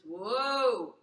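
The tone is deep and resonates in the chest. "So the chest color is"

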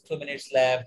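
It is said in a serious, tense tone. Time is running out and it is urgent. The speaker calls it wrong. "doctor is to be very serious now, only 2 minutes left. Maybe it is expressed in my tone"

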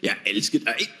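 It is said with a Danish accent.

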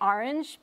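Orange is said with a New York-influenced pronunciation. This is how the speaker says it, influenced by New York parents. "But I say orange because, ... my parents partly grew up in New York"

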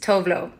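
The name is pronounced in an anglicized way. "The international way that I embraced"

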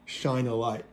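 It is said in a thick northern English accent.

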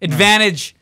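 It is said in a Canadian accent. "ये नहीं बोलता. वो कनेडियन तो इस तरह बोलते"

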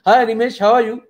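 It is said at a high pitch.

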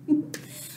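The word is whispered softly.

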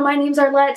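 It is said in a bold, confident manner. The presenter feels sure of herself. The speaker calls it right. "there's people who do that, and I really wish I had that, like, attitude"

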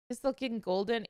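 It is said in a calm, casual tone. The speaker calls it wrong. "The Pistol King Golden sounded casual"

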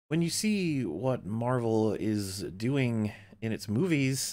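It is read with pauses in odd places. The speaker calls it wrong. "the pauses are all in the wrong places"

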